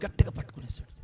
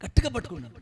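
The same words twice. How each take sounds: First: Whispered, as if seizing someone in secret; sudden whisper. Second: Said in the usual way. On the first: Acted. Preacher whispers how the soldier seized Jesus, whispered. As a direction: hiss the grab under the breath.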